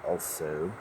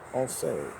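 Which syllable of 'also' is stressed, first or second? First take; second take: second; first. First: The stress is on the second syllable. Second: The stress is on the first syllable.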